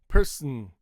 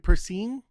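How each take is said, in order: First: The second syllable's vowel is cut out. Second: The second syllable has a full 'ee' vowel. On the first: The speaker calls it right. "just cut the vowel" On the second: The speaker calls it wrong. "if you're using this sound for I, it doesn't sound natural"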